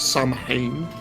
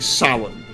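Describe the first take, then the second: First: The name is said as spelled, like 'Sam-hane'. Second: The name is said without the h, like 'Sow-in'. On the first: The speaker calls it wrong. "most people would pronounce it as Sam Hain" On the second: The speaker calls it right. "That's actually how you pronounce that"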